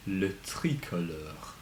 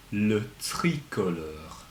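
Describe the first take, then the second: First: Le tricolore said softly with a French r; soft French model. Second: Le tricolore with a French uvular r, slow; careful French model. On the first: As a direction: quieter le tricolore, French style. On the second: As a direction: say le tricolore slowly, French style. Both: Shown as a demonstration. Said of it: "écoutez".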